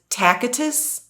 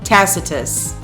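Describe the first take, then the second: First: The name begins like the word 'tacky'. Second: The name does not begin like 'tacky'. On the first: The speaker calls it wrong. "I thought that it was pronounced Tacitus" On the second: The speaker calls it right. "I probably still didn't pronounce it correctly"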